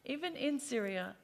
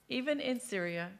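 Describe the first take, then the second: No difference in how they are said.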